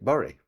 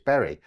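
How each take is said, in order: First: The word is said in a Lancashire dialect way. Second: The word is said in a standard, non-Lancashire way. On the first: This is how many locals say the name. "people who perhaps are from Lancashire pronounce it Bury" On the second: This is how the name is properly said. "It's Bury"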